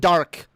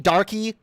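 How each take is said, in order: First: The name is one syllable ending in k. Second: The name ends in an ee sound. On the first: Many people shorten it this way. "pronounce it Dark. Like a lot of people do" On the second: Another person kept saying it this way. "Every five fucking seconds out of your mouth?"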